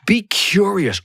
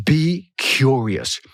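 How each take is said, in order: First: Said in the usual way. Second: BE CURIOUS drawn out very slowly; slow, lingering "Be... curious"; savoring the words. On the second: Shown as a demonstration. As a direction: stretch out "Be curious", relishing each word. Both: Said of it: "Oh, I love that word".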